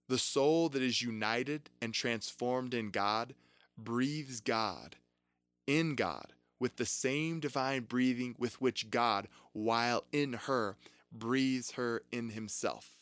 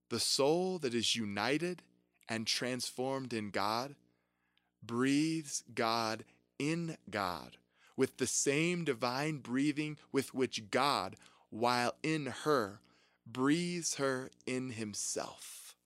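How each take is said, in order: First: It is read at a normal pace. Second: It is read slowly.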